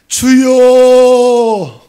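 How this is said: It is said fervently, with earnest longing.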